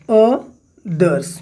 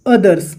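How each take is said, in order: First: "others" split slowly into o, then thers; syllable by syllable. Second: Said in the usual way. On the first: Shown as a demonstration. Teacher counting sounds for students, "others" broken into syllables. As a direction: say "others" in two separate beats with a clear gap. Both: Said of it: "तो number of sounds count करिए".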